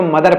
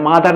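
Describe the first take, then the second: First: मदर starting on short "muh"; correct mother pronunciation. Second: मादर starting on long "maa"; mispronounced mother. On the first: Teacher says no long vowel is added, correctly pronounced मदर. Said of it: "इसको मदर पढ़ते हैं". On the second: Teacher shows what not to read, mispronounced मादर. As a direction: stretch the first vowel of मादर to a wrong "aa". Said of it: "मादर नहीं पढ़ते हैं". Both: Shown as a demonstration.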